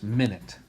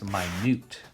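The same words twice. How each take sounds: First: The first syllable sounds like 'min'. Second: The first syllable sounds like 'my'.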